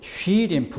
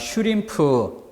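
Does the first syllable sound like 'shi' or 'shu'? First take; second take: shi; shu. First: The first syllable has a 'shwi' glide sound. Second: The first syllable has a rounded 'shu' sound. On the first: The speaker calls it wrong. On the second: The speaker calls it right.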